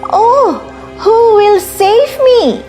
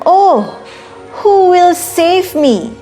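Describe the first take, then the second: First: It is said a little louder. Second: It is said in a tiny, quiet voice.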